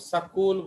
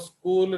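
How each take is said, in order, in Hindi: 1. s और k के बीच एक स्वर डाला जाता है। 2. यह sk के संयोजन से शुरू होता है, बीच में कोई स्वर नहीं। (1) "वो सकूल बोलेंगे" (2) "वो स्कूल नहीं बोलते हैं"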